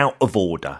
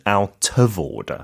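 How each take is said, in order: First: The t sounds are swallowed as glottal stops. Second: The t sounds are clearly pronounced. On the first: It sounds like ordinary working-class speech. "그 glottal stop해서 네. 그 t 발음 약간 먹는 발음" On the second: It sounds posh and refined. "근데 고급지려면 out of order"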